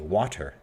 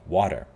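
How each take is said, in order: First: The middle consonant is a crisp t sound. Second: The middle consonant sounds like a soft d. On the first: "Americans don't say water" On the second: "the replacement of T sounds, t, into d"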